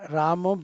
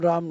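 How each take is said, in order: First: The name ends with a final 'o' vowel. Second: The name ends on a consonant, no final vowel. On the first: "रामो बिल्कुल नहीं बोलना चाहिए" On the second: "राम राम नहीं बोलना है"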